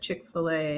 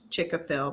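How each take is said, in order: First: The name ends with an 'ay' sound. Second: The name ends with a 'fil' sound. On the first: The speaker calls it right. "but Chick-fil-A" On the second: The speaker calls it wrong. "I always call it Chick-a-Phil"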